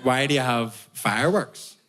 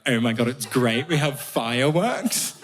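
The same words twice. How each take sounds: First: Said in the usual way. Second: Put-on gushing English accent, slow finish; mock English accent. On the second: English people explaining their tradition to an Irishman, gushing English accent. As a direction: imitate English delight, stretching the last words. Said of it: "all these mad English traditions".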